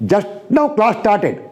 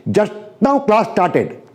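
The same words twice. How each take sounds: The two takes are said the same way.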